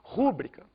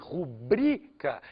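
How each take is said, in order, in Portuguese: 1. A tônica está na primeira sílaba. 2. A tônica está na segunda sílaba. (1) "é pronunciado com a tônica no u" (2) "deveria ser pronunciado com a tônica no i"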